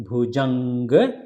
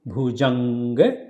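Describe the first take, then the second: Both takes have the same delivery.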